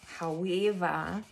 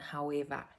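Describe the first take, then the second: First: It is said in a put-on Australian accent. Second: It is said in a plain American accent.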